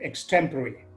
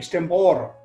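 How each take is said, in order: First: It is pronounced the standard English way. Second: It is pronounced the way many local speakers say it. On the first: The speaker calls it right. "instead of saying" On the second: The speaker calls it wrong. "They say"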